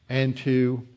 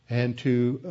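No difference in how they are said.

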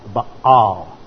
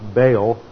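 First: The word has the Hebrew pronunciation. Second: The word has the usual English pronunciation. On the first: "but in Hebrew, it is Baal" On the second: "in English, it's usually pronounced Baal"

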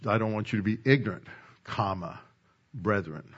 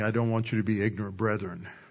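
First: There is a clear break before 'brethren'. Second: It runs on into 'brethren' without a break.

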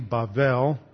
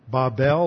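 First: The middle consonant is a V sound. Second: The middle consonant is a hard B sound. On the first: "this is a soft B, so it's sometimes pronounced like a V" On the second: "this is a hard B"

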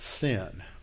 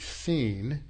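First: The vowel is a short 'i' sound. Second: The vowel is a long 'ee' sound. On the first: This is the anglicized form. "that's how most of us pronounce it, as it's anglicized" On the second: This is the Hebrew form. "in Hebrew, it would be seen"

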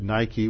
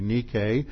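First: It is said the English brand way. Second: It is said the ancient Greek way. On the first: It names the athletic shoe brand. The speaker calls it wrong. "you mispronounce it Nike when you get your athletic shoes" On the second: It names the ancient goddess of victory. The speaker calls it right. "the Greek goddess of victory"

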